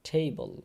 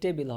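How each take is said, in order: First: The first t sound has a breath puff. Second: The first t sound has no breath puff. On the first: The speaker calls it right. "টেবল মানে ঠ দিয়ে উচ্চারণ হবে" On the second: The speaker calls it wrong. "এটা ট দিয়ে টেবিল হবে না"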